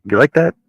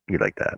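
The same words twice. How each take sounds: First: High, loud, playful question; excited question. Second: Said in the usual way. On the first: Real, not acted. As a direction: ask it brightly, rising up. Asks pet about the blanket.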